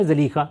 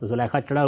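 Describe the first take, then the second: First: زلیخا said "zaleekha", long ee; زلیخا with a first, then long ee; original pronunciation. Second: زلیخا said "zulaikha", u then ai; زلیخا with u first and an ai glide; popular pronunciation. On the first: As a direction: say زلیخا as "za-lee-kha". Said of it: "اصل تلفظ کیا ہے". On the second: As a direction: say زلیخا as "zu-lai-kha". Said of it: "لوگوں کی زبانوں پر زلیخا چڑھا ہوا ہے". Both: Shown as a demonstration.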